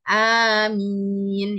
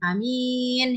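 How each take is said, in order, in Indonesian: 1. Kedua vokal dipanjangkan, masing-masing dua ketukan. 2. Hanya vokal kedua yang dipanjangkan. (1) "A-nya panjang, mimnya juga panjang" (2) "A-nya pendek, kemudian mimnya panjang"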